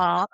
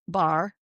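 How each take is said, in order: First: "Ba," with no R, like an East Coast speaker; dropped R. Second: "bar." with a strong rhotic R; hard R. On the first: Contrasting accents for a friend, an R-less "Ba,". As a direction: say "Ba," with the R left off. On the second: Contrasting accents for a friend, a hard-R "bar.". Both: Shown as a demonstration. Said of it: "so much different than".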